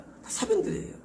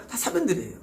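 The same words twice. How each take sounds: First: 사변들이에요 breathed out high and unvoiced, almost a whisper; breathy aside. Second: Said in the usual way. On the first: Preacher dismissing human works, a breathy whispered 사변들이에요. Repeated refrain, second take.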